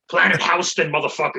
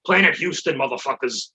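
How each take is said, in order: First: "Houston" said HOW-ston, like the New York street; "Houston" with an OW vowel in the first syllable. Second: "Houston" said HYOO-ston, like the Texas city; "Houston" with a YOO vowel in the first syllable. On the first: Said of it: "I always say how fuck". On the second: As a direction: say "Houston" with a "hue" at the start. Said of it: "New York, it's Houston". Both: Shown as a demonstration.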